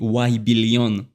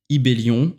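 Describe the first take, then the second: First: The name begins with a 'why' sound. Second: The name begins with an 'ee' sound. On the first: This is how English speakers read the name. "pour les Anglais, bah, le Y se prononce Y" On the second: This is the intended French pronunciation. "en prononciation française"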